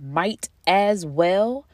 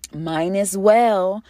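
First: "might as well" said slowly with a clear t. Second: "Mine as well" slurred slowly, n sound for the t. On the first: Showing the correct phrase, slowly and deliberately. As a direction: spell out "might as well" carefully. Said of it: "if you didn't read". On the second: Explaining misheard phrases, slowly says it the wrong way. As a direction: drawl "Mine as well" as one mushed phrase. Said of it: "people that say". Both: Shown as a demonstration.

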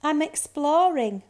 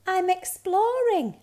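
First: Mildly gloomy high cub voice. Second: High, loud little cub voice; little bear cub. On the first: Bear cub answers the girl, gloomy. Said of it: "little Snow Bear said gloomily". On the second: Bear cub tells reindeer, high and bright-eyed. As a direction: announce it proudly in a high cub voice. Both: A narrator's reading.

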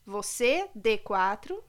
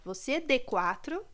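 First: Said in the usual way. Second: Slowed to spell out "Você, D quatro"; "Você, D quatro" drawn out word by word. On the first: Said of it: "Vou ler". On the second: Shown as a demonstration. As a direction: read "Você, D quatro" deliberately slow. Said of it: "Tá tudo em caixa alta".

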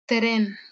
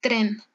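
First: "tren" opened out as "te-ren", R tapped once; careful "t(e)ren" with a single tap; soft R drawn apart. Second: Said in the usual way. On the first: Shown as a demonstration. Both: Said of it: "detrás de una consonante".

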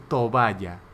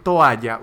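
First: Toalla said as to-BA-ya, with a b slipped in; mispronounced toalla. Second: Said in the usual way. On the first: Shown as a demonstration. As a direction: say toalla like tobaya. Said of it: "usted puede decir". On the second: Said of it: "En vez de decir".

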